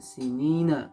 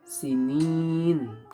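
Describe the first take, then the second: First: The word ends on the vowel a. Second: The word ends on the consonant n. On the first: The reading continues into the next words. The speaker calls it wrong. "gak boleh dibaca sinina kecuali diwasolkan" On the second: The reading stops at this word. The speaker calls it right. "cukup diwakofkan menjadi n ya. Jadi sinin"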